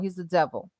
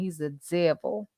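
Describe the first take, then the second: First: It is said in the speaker's usual accent. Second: It is said in a Southern accent.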